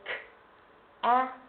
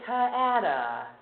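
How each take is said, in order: First: Each consonant sound is said without an extra vowel. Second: Each consonant sound has an extra vowel added. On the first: The speaker calls it right. "So k-a-t" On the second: The speaker calls it wrong. "That's not going to be very helpful"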